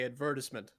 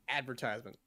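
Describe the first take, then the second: First: The word is said the British way. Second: The word is said the American way. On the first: "in Britain, they say" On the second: "in America, it's going to say"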